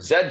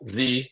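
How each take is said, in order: First: The letter is said the British way, 'zed'. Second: The letter is said the American way, 'zee'.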